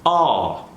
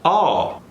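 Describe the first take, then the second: First: The final L is barely heard. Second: The same.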